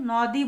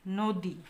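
First: নদী said as 'naw-di'; wrong open vowel. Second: নদী said as 'no-di'; rounded 'o' in the first syllable of নদী; closed o vowel. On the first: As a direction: open 'aw' in the first syllable of নদী. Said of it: "আমরা কিন্তু নদী বলি না". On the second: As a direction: say নদী with ও after the ন. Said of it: "আমরা বলি". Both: Shown as a demonstration.

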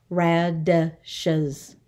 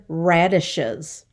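First: "Radishes" in three separate beats, ra-di-shes; syllable by syllable. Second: Said in the usual way. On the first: Shown as a demonstration. Teacher counting for the class, "Radishes" syllable by syllable. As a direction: sound out "Radishes" with gaps between syllables. Syllable lesson, word broken up.

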